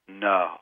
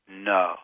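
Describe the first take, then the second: First: It is said firmly but with warmth. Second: The same.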